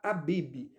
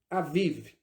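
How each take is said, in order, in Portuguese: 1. A consoante do meio é um som de b. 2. A consoante do meio é um som de v. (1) "a tradução está Abib" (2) "A palavra hebraica, na verdade, se pronuncia Aviv"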